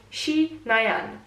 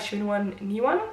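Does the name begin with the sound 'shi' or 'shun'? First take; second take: shi; shun. First: The name begins with 'shi' and is shorter. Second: The name begins with 'shun' and has extra syllables. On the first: The speaker calls it right. "Let me check my notes" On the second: The speaker calls it wrong. "I was kind of close but still butchered it"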